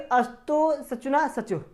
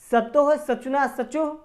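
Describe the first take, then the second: First: The first word begins with a full a vowel. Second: The first word begins with a faint, tiny a. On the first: "अस्तोह पढ़ते हैं तो पूरा अ का ही उच्चारण होता है" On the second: "सतोह कहते हैं वो में भी छोटा सा अ का उच्चारण होता है"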